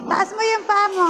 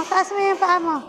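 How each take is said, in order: First: Laughing while instructing. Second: Said in the usual way. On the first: Real, not acted.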